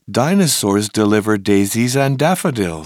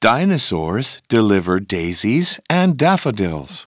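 First: The sentence is said at a fast pace. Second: The sentence is said at a moderate pace.

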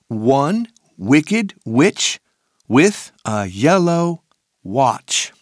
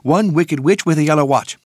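First: It is said at a normal speed. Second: It is said very fast.

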